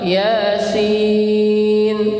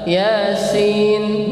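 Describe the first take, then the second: First: Only the second vowel is drawn out long. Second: Both vowels are kept short. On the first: The speaker calls it right. "ya-nya dua harokat, sinnya yang panjang" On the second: The speaker calls it wrong. "ya-nya pendek, sin-nya juga pendek"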